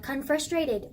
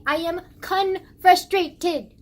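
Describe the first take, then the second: First: Said in the usual way. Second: Loud, slow, each chunk of "confrustrated" punched out; emphatic CONFRUSTRATED. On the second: Real, not acted. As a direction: hammer "confrustrated" out slowly and loudly. Insists on the new word, emphatically.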